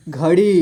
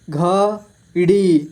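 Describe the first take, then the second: First: Said in the usual way. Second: घड़ी split slowly into घ, ड़ी; syllable by syllable. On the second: Shown as a demonstration. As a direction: stretch and separate घ and ड़ी in घड़ी. (घड़ी को तोड़कर धीरे: घ, ड़ी) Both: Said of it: "इस तरह से आपको".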